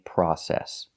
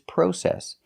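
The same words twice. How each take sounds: First: It is said with an American pronunciation. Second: It is said with a British pronunciation. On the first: "in America, we don't. We say process" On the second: "the British pronunciation is process"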